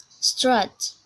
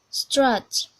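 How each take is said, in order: Both takes have the same delivery.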